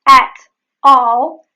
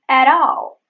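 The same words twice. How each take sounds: First: The T is a full, released stop. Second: The T is a quick flap. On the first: "The at all becomes" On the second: "There is the flap T"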